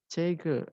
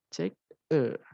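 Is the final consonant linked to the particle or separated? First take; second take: linked; separated. First: The final consonant runs into the particle. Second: The word and particle are said apart. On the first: The speaker calls it right. "yaitu cegel" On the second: The speaker calls it wrong. "bukan cek "e""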